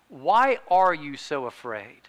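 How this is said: It sounds like a sincere, curious question.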